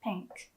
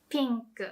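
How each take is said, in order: First: Said in the usual way. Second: Pink with a smiling ee vowel; Japanese-style pink. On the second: Shown as a demonstration. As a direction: smile on the i of pink. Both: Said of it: "Do you hear the difference?".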